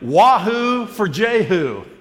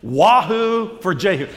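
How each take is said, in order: First: It is said with lively enthusiasm. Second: It is said flatly, without much energy.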